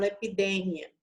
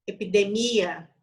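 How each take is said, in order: First: "epidemia" stressed on DE, e-pi-DE-mia; Spanish pronunciation. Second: "epidemia" stressed on the i, e-pi-de-MÍ-a; incorrect pronunciation. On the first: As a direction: hit DE in "epidemia", short final mia. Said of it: "porque eu falo". ("epidemia" em espanhol, com a tônica em DE) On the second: ("epidemia" errado, com a tônica no i) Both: Shown as a demonstration.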